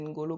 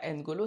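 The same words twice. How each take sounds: First: The opening N is blended into the next sound. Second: The opening N is said as a separate sound. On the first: This is how Africans say the name. The speaker calls it right. "c'est N'Golo Kanté" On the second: This is how the French media say the name. The speaker calls it wrong. "c'est pas N'Golo"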